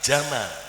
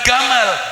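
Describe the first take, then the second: First: The word begins with a j sound. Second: The word begins with a hard g sound. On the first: This is the proper Arabic way of saying it. The speaker calls it right. "tapi jamal" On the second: This is the Egyptian way of saying it. The speaker calls it wrong. "Bukan gamal"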